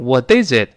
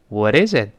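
First: The t is pronounced forcefully and deliberately. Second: The t is a light, quick tongue tap. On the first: The speaker calls it wrong. "千万不能用力去刻意发那个的，你要读成What is it？…那就非常怪啊" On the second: The speaker calls it right. "是轻轻一扫，像蜻蜓点水一弹射。你看"

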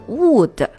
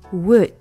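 First: The vowel is long, as in food. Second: The vowel is short, as in foot. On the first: The speaker calls it wrong. "不是wood" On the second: The speaker calls it right. "double o 在这边的发音应该是跟我们之前说过的foot 是一样的"

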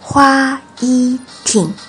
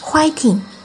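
First: It is said slowly and carefully. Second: It is said quickly.

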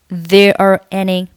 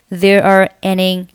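Both takes have the same delivery.

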